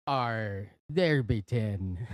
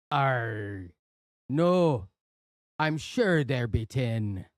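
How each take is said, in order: First: Slow, growly pirate. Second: Pirate growl, slowed down. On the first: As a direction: say it like an old sea pirate. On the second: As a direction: deliver the punchline as a pirate. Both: Acted. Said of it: "we have to do that joke in a pirate voice".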